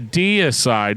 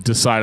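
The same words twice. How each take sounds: First: It is said with three syllables, dee-ih-side. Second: It is said like the word decide, two syllables. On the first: The speaker calls it right. "That makes way more sense" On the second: The speaker calls it wrong. "I used to just call them Decide"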